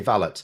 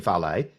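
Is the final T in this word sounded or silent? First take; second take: sounded; silent. First: The final T is clearly pronounced. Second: The final T is silent, ending in an ay sound. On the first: This is how it is said in this country. "we still say valet" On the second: This is how Americans say it. "It's Americans that say valet"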